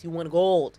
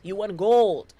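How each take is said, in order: First: Said in the usual way. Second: Louder, punching GOLD like an announcer; triumphant announcement. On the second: Shown as a demonstration. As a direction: call it out like a sports announcer crowning the winner. Repeats the line, second time bigger.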